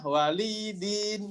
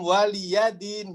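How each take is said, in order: First: The li is lengthened and the ya silent. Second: The ya is voiced with a short vowel.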